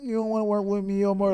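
It is said in an altered, put-on voice. "they're doing the voice along with it"

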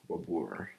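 The name is said with an American R. "American way is like Babur, like R"

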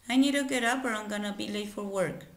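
The sentence flows as one continuous phrase. "diré la oración en su forma normal"

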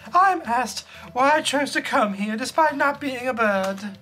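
It is said in a put-on girl voice.

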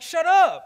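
It is said in a harsh, biting tone.

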